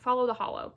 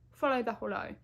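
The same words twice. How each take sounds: First: It is said in the speaker's usual accent. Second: It is said in a put-on British accent.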